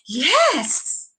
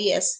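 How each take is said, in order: First: It is said in an excited way. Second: It is said in a disinterested way.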